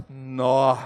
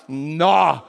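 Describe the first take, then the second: First: Very low, sinking "nó"; let-down Mineiro "nó". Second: Low "nó" at a big payday; impressed Mineiro "nó". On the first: Mineiro seeing little money, low let-down "nó". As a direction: drop "nó" right down in disappointment. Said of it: "Deu pouco dinheiro". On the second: Mineiro seeing a fat paycheck, low impressed "nó". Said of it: "deu muito dinheiro, o que que ele fala". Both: Acted.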